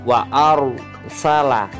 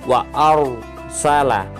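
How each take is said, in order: No difference in how they are said.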